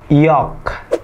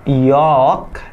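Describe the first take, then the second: First: The l sound is silent. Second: The l sound is pronounced. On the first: The speaker calls it right. "itu ada York" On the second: The speaker calls it wrong. "not York"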